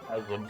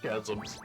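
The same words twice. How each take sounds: First: It begins with a hard k sound. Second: It begins with a soft ch sound. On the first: The speaker calls it right. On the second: The speaker calls it wrong.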